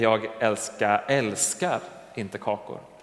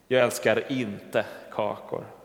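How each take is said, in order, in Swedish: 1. Ordet älskar har betoningen. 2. Ordet kakor har betoningen. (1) "Jag kanske gillar kakor, men jag älskar dem inte" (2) "Men betoningen kan få tänka mig att jag älskar något annat"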